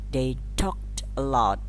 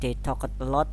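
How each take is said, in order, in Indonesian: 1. -ed diucapkan sebagai bunyi t pendek. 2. -ed diucapkan sebagai suku kata tambahan. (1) "tapi bacanya" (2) "Bacanya bukan"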